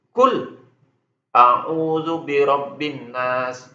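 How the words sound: There is a brief stop right after kul. "itu disaktahkan namanya. Ada jedah"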